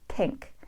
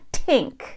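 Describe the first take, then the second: First: It begins with an unaspirated t-like dental sound. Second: It begins with a strongly aspirated t sound. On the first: The speaker calls it right. "It's pink" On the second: The speaker calls it wrong. "It's not a t aspirated t"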